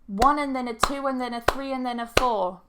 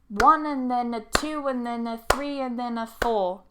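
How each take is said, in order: First: It is said at normal, faster speed. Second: It is said slowly and carefully. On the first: "Normal speed" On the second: "I'll do it slowly"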